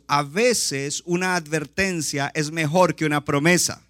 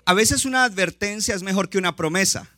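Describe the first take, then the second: First: It is said more slowly. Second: It is said at a normal pace.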